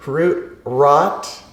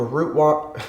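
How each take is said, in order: First: Said in the usual way. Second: "root wa-" with the r of rot said as a w; "wa-" starts with a w sound where the r should be, then breaks off; says w for r. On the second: Real, not acted. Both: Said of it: "I can't pronounce my R's today".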